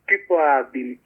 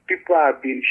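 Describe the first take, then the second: No difference in how they are said.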